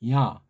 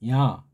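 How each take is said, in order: No difference in how they are said.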